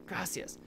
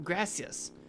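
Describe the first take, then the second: First: A whispered, secretive thanks; soft unvoiced Gracias. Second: Said in the usual way. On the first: Shown as a demonstration. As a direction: breathe the word Gracias with no voice.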